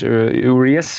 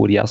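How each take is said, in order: First: The name is said in an English-style accent. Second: The name is said in a Spanish accent.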